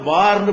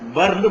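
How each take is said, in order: First: The first vowel is held long. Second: The first vowel is cut short. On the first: The speaker calls it wrong. "இத பார்ந்து படிக்க கூடாது" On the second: The speaker calls it right. "எப்படி படிக்கணும், பர்ந்து படிக்கணும்"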